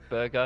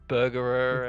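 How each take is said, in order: First: The name is said with two syllables. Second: The name is said with an added syllable. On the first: The speaker calls it right. "It's just Burger" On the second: The speaker calls it wrong. "He ne- pronounced it like Burgerer"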